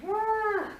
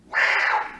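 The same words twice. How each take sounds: First: A much higher voiced squeal of an elephant; the amateur version, a high voiced yelp; old elephant noise. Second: Breathy trumpet blown through pressed lips; loud unvoiced elephant trumpet through the lips; elephant noise. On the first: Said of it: "My elephant noise used to be". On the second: Shown as a demonstration. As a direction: blow out hard through closed lips like an elephant. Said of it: "I learned how to go".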